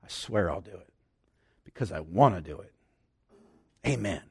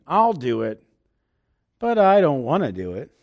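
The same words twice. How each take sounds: First: Low, soft, earnest vow; mean every word of it, quietly; sincere oath. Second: Laughing, reluctant mock promise; half-joking, you don't really mean it; grudging with a laugh. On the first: Retold or imitated. A blood covenant partner swearing loyalty, low sincere vow. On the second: Agreeing to a chore while laughing it off, grudging. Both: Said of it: "this is the tone of voice".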